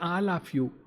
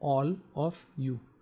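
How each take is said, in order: First: The word 'all' has a regional Indian vowel. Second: The word 'all' has a standard English vowel. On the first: The speaker calls it wrong. "If I have poor pronunciation" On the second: The speaker calls it right. "if the person knows English, will say"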